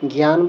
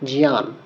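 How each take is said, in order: First: The word begins with a g sound. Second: The word begins with a j sound. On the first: The speaker calls it wrong. "যেটা আমরা জ্ঞান বলি" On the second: The speaker calls it right. "শুদ্ধভাবে বলতে হবে জিয়ান"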